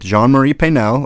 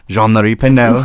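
First: The name is said with English pronunciation. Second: The name is said with French pronunciation.

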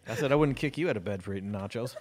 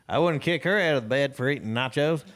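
First: It is said in their normal accent. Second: It is said in a country accent.

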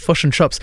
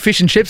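First: It is said in a New Zealand accent. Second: It is said in an Australian accent.

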